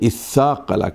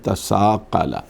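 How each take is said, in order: First: It starts with a vowel and doubled s. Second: It starts with a separate t sound.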